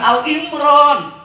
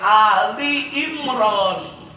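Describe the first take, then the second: First: The first part is a short Al. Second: The first part is a two-syllable Ali. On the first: The speaker calls it wrong. "bukan Al-Imran" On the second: The speaker calls it right. "yang benar Ali"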